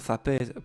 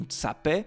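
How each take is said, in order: First: The word begins with a 'th' sound. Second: The word begins with a 'ts' sound. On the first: This is the form in most Savoy dialects. "tse à la place du th" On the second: This is the form in some other dialects. "donc tse à la place du th"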